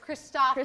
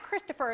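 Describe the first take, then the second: First: The name is pronounced the Danish way. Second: The name is pronounced the usual English way. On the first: The speaker calls it right. "it's Christopher" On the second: The speaker calls it wrong. "it's not Christopher"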